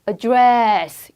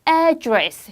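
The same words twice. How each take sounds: First: The stress is on the second syllable. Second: The stress is on the first syllable. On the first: It is used as a verb. "동사할 때는 뒷강세로 강세가 움직여요" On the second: It is used as a noun. "명사의 명사의 뜻일 때는 앞에 가게"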